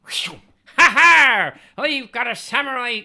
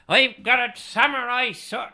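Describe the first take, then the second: First: One more try at a cartoon Japanese samurai; mock Japanese accent. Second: Hammed-up Japanese accent, higher and louder; failing at a Japanese accent; mock Japanese accent. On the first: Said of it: "let me try one more time". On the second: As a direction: bark it like a cartoon samurai in a bad Japanese accent. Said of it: "It's still not Japanese".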